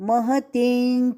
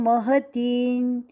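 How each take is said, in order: Both takes have the same delivery.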